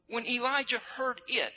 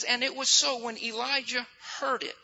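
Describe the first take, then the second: First: "it" set apart as the key word; stress on IT. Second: Said in the usual way. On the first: Shown as a demonstration. Preacher has listeners circle the word, stress on "it". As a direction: lean on the final "it". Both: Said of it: "You need to circle that word it".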